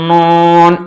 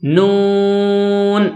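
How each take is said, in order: First: نون sent through the nose; nasalised, sustained نون; wrong, nasal. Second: نون with a clear long oo, not nasal; drawn-out oral نون, kept out of the nose; out of the mouth. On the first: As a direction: hum نون into the nose and hold it. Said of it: "یہ غلط ہے". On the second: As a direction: sustain نون through the mouth on a level note. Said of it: "منہ سے آواز نکال کر". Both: Shown as a demonstration.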